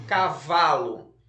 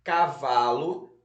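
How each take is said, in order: First: "cavalo" slow and loud, VA stretched, falling end; stress on VA. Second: "Cavalo" read slowly with a rising list tune; word dictation. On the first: Teacher shows pupils the strongest syllable, "cavalo" stressed on VA. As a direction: punch the middle syllable of "cavalo". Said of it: "embaixo da sílaba mais forte". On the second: Teacher repeats the word list for pupils, "Cavalo" in careful dictation. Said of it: "vamos lá repetir as palavras". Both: Shown as a demonstration.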